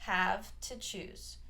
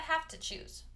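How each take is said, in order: First: Each word is pronounced fully and clearly. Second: The words blend together with a weak vowel. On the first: "if you want to fully pronounce it, you can say" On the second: "this is going to get reduced to have to"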